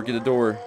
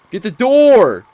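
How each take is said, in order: First: Said in the usual way. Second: Yelled much higher and louder; screaming at the game to open the door; real frantic yell at the screen; frantic shout. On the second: Real, not acted. Urging door open, now yelling.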